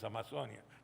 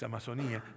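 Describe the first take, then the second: First: The stress falls on the syllable 'zo'. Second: The stress falls on the syllable 'ni'. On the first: This is how the speaker's own community says it. "Nosotros decimos Amazonia" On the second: This is how it is said in the local country. "pero acá es Amazonía"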